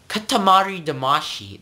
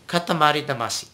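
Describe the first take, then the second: First: "Katamari Damacy" with American R, higher; non-Japanese pronunciation. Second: "Katamari Damacy" quick and even, tapped R; Japanese pronunciation. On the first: Teacher mocks the English version, American R. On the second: Teacher models the correct name, Japanese tapped R. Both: Shown as a demonstration. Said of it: "that cannot ever sound Japanese".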